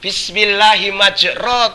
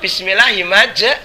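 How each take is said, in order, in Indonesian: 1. Vokal terakhir diucapkan o. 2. Vokal terakhir diucapkan e. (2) "ning lek maca"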